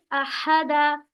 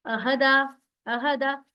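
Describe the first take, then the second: First: "अहदा" with a long, heavy h from mid-throat; wrong forced ha. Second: "अहदा" with a short, light h; normal light ha. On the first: Teacher shows students what to avoid, exaggerated heavy ha. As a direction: overdo and stretch the h in "अहदा". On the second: Teacher models the word for students, light normal ha. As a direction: say "अहदा" easily, without forcing the h. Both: Shown as a demonstration. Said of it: "ऐसा मत पढ़िए".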